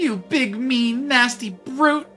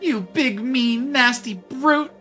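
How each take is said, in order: First: The word brute is strongly stressed. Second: The same.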